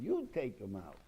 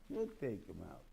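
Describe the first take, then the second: First: "You" punched louder and higher, the rest falling; stress on YOU. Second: "You" leaned on lightly at normal level, then falling; a calm repeat with mild weight on "You"; stress on you. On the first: To his listeners, teaching that Moshe must act: stress on "You". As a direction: lean hard on "You" to say it's your job. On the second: To his listeners, calmly restating Moshe's task: light stress on "You". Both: Shown as a demonstration. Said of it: "Not, "I'm taking 'em out".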